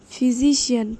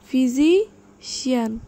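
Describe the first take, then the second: First: Said in the usual way. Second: physician slow and loud, pause before Xi'an; syllable by syllable. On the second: Shown as a demonstration. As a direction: split physician in two with a clear gap. (Physician জোরে, ধীরে, ভেঙে) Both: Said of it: "সিলেবলগুলো ভেঙে ভেঙে".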